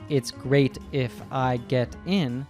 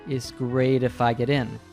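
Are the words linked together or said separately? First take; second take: separately; linked. First: The words are said separately with clear t sounds. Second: The words run together with d-like t sounds. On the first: "Rachel didn't say" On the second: "She said, ... all these words link together"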